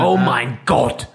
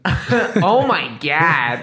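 First: It is said in a German way. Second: It is said with an American accent. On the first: "in German" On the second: "It'd be funnier if you said it in American accent"

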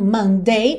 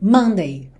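First: The stress is on the last syllable. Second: The stress is on the first syllable.

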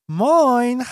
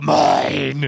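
First: It is said in a sweet, cute voice. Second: It is said in a spooky ghost voice.

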